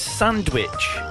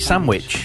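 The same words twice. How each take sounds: First: The middle is said with an n-d sound. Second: The middle is said with an m sound. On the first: "Helen always says sandwich" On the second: "we always pronounce it sandwich, S-A-M-W-I-C-H"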